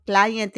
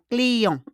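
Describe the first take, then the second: First: Client said the English way, "CLY-ent"; English pronunciation. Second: Client as "klee-ON", nasal ending, silent t; French pronunciation. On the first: Teacher compares languages, English pronunciation of client. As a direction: say client with a long i and sounded t. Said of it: "client in English". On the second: Teacher shows how French says it, silent t in client. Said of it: "on prononce comme client". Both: Shown as a demonstration.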